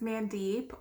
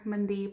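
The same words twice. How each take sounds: First: The name is said in an anglicized way. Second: The name is said in its native way. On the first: This is the easy version for those who can't pronounce it. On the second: This is the version for those who can pronounce it.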